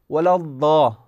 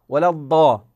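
The two takes are said the same way.

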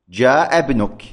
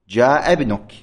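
Both takes have the same delivery.

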